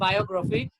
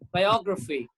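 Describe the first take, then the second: First: The stress is not on the third-last syllable. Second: The stress is on the third-last syllable. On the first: The speaker calls it wrong. "Indian English, that's what we pronounce biography. It's not biography" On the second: The speaker calls it right. "it's biography"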